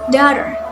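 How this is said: It is spoken with an American accent. "An example American pronunciation is daughter"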